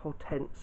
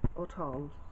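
First: The name has an English pronunciation. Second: The name has a non-English pronunciation.

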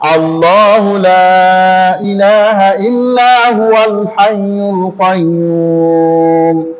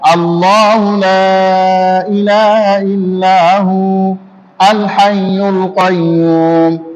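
First: It is read in one breath, huwal linked. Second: There is a stop after hu before al. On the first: "যদি একবার পড়তে যান তাহলে কিভাবে পড়বেন?" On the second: "আর যদি থেমে পড়েন"

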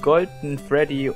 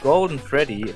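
First: The name is said with German pronunciation. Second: The name is said with English pronunciation. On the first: "So richtig verdeutscht" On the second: "Ich hab sogar jetzt extra auf Englisch gesagt"

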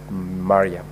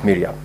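First: The name begins with a 'ma' sound. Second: The name begins with a 'mi' sound. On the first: The speaker calls it right. "the name is pronounced as Mariam" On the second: The speaker calls it wrong. "you made reference to the distinguished Senator Omar Sheikh Mariam as Miriam"

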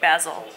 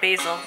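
First: It is pronounced the British way. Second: It is pronounced the American way.

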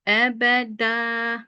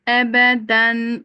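First: The word ends in a long vowel. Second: The word ends in a clear n sound. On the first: The recitation stops at this word. "Ebeda durduğumda met divaz var" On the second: The recitation continues into the next word. "Vasıl geçtiğimde de ısrar var diyorum"

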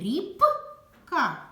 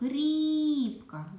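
First: The consonant p sound is drawn out. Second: The vowel i sound is drawn out. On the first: "Звук «п»" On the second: "Звук «і» голосний"

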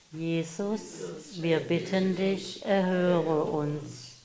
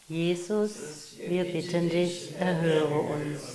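No difference in how they are said.

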